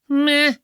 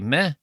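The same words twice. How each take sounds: First: The word is said with strong emphasis. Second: The word is said plainly, without emphasis.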